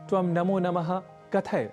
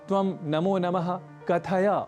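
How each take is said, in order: First: The final short a vowel is dropped. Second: The final short a vowel is pronounced. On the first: The speaker calls it wrong. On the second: The speaker calls it right.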